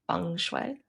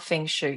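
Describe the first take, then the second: First: The second syllable sounds like 'way'. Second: The second syllable sounds like 'shoe'. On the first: The speaker calls it right. "it's like a fun way" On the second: The speaker calls it wrong. "not feng shui. Nothing to do with shoes"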